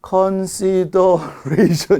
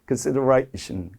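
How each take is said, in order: First: The word is drawn out slowly. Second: The word is said at a normal pace. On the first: The speaker calls it wrong. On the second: The speaker calls it right.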